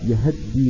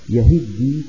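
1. الهاء عليها فتحة مختلسة مختصرة. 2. الهاء عليها كسرة. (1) "باختلاس فتحة الهاء" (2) "كحفص صاحبنا"

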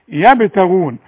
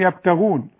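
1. يُنطق صوت الباء مُطلقًا مع ارتداد صدى. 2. يُنطق صوت الباء مغلقًا من غير ارتداد صدى. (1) "انا لاحظت انك انت مش بتقلقلي هذه الحروف" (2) "بتقول يبتغون"

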